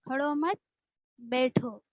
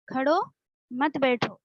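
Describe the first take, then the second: First: There is a pause after the second word. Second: There is a pause after the first word.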